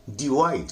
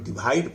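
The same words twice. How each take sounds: First: "डिवाइड" with a rounded w in the middle; corrected pronunciation. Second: "डिवाइड" with a bh-like consonant in the middle; common mispronunciation. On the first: Teacher corrects the learners' version, "डिवाइड" as di-waid. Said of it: "डिवाइड नहीं है". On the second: Teacher shows how learners say it, "डिवाइड" as di-bhaid. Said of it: "हम लोग डिवाइड पढ़ते हैं". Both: Shown as a demonstration.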